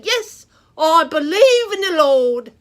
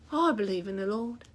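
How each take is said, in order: First: Bold declaration. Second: Said in the usual way. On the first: Shown as a demonstration. Preacher showing children how to answer, loud bold declaration. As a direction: proclaim it loud and proud, full voice. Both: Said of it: "take a stand and say".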